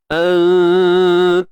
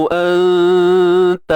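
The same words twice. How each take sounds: The two takes are said the same way.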